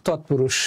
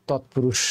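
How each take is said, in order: Both takes have the same delivery.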